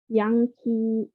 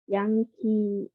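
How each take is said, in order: The two takes are said the same way.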